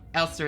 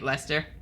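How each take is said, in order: First: The name begins with an 'el' sound. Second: The name begins with an 'le' sound. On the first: The speaker calls it right. "Elster is so much better" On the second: The speaker calls it wrong. "I was pronouncing it Lester"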